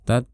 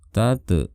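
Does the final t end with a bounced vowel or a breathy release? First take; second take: breathy; bounced. First: The final t is released with a soft breath. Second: The final t bounces with a short echoing vowel. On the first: The speaker calls it right. "suaranya itu suara hamz" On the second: The speaker calls it wrong. "jangan tate"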